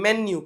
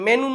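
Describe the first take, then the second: First: A y glide comes before the final vowel. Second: The final vowel follows n with no y glide. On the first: The speaker calls it right. "મેન્યુ કહેવાય" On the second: The speaker calls it wrong. "મેનુ નો કહેવાય"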